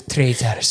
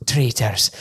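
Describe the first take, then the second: First: Scottish "Traitors" again, short; the Scottish host's "Traitors"; Scottish accent. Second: A Scottish rolled Traitors; Scottish accent. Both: Retold or imitated. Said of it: "which is fully Scottish".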